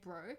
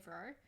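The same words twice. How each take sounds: First: The word begins with a B sound. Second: The word begins with a V sound. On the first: "instead of saying bro" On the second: "Like V R O"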